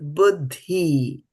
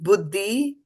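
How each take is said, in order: First: The d sound is aspirated, with a breath. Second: The d sound is plain, without aspiration. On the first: The speaker calls it right. "it is buddhi" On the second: The speaker calls it wrong. "So it is not buddhi"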